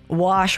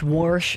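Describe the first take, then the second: First: The word is said without an r sound. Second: The word is said with an r sound.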